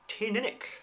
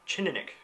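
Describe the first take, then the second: First: The name begins without a ch sound. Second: The name begins with a ch sound. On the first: "which I may or may not be saying correctly" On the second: "one began with a, a ch, more like a Chininick"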